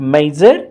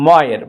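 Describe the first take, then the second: First: The middle consonant is a J sound. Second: The middle consonant is a Y sound. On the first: The speaker calls it wrong. "It's not like మైజర్" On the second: The speaker calls it right. "It's మాయర్"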